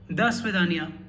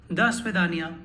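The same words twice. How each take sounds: First: The first vowel sounds like a reduced a. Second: The first vowel sounds like a reduced a.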